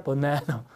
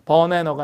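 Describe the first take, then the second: First: 바나나 as "buh-NAE-nuh", stress on the middle; stressed middle syllable. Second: 바나나 as even "buh-ne-nuh", no syllable punched; unstressed English sounds. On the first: Teacher giving the correct take, stressed middle syllable. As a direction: punch the second syllable of 바나나. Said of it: "강세를 보고". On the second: Teacher showing the take to avoid, unstressed sounds. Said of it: "바나나가 아니라 바나나". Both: Shown as a demonstration.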